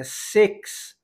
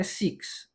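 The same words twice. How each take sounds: First: "six" as "secks", the correct way; "six" with a short English I, near "seks". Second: "six" as "seeks", the wrong way; "six" with a tight "ee" vowel. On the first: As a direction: open the I of "six" towards "eh". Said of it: "O I com som de E". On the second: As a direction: say "six" softly with a Portuguese "ee". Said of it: "Não é six". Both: Shown as a demonstration.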